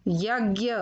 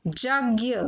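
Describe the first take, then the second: First: Said in the usual way. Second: यज्ञ said "jagya"; mispronounced यज्ञ. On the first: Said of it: "फिर उनका शुद्ध उच्चारण". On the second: Shown as a demonstration. Teacher showing children the error, यज्ञ said "jagya". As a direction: begin यज्ञ with j instead of y. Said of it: "अशुद्ध शब्द मैंने रखे हैं".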